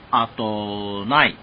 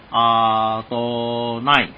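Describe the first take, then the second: First: The first vowel is short and quick. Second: The first vowel is drawn out long.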